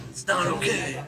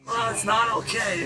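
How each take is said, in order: First: Very low, creaky echo; low acted voice. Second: Put-on voice pitched well up; high acted voice. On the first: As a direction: drop it right down into a creak. Low echo of the high line. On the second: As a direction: pitch the whole protest up high. Acted line, later echoed low.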